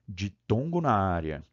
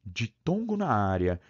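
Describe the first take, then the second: Both takes have the same delivery.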